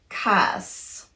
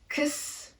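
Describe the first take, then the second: First: The vowel is full and clearly pronounced. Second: The vowel is a very short, reduced schwa. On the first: The speaker calls it wrong. "not cuss" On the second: The speaker calls it right. "going from the k to the s very quickly with minimal tongue movement"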